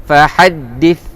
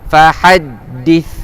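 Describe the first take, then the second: The two takes are said the same way.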